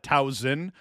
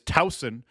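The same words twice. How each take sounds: First: The middle consonant sounds like a buzzing Z. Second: The middle consonant is a soft hissing S. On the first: The speaker calls it wrong. "I pronounced Towson wrong because I do think I call it" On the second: The speaker calls it right. "the proper pronunciation is Towson with a soft S"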